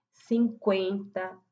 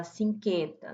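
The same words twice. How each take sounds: First: Cinquenta drawn out slowly with the u sounded, sin-kwen-ta; slowly: Cinquenta with a clear kw; correct pronunciation. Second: Cinquenta said without the u, as sin-ken-ta; wrong pronunciation. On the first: Teacher modeling the trema sound: Cinquenta as sin-kwen-ta. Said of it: "A gente fala cinquen". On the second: Teacher showing the wrong way: cinquenta with no u sound. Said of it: "não fala cinquenta". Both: Shown as a demonstration.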